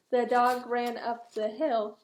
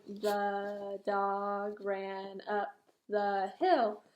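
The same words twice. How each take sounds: First: Said in the usual way. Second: Very slow, dragged-out reading; reading too slowly. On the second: Shown as a demonstration. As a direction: drag each word like a struggling reader. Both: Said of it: "and he's going".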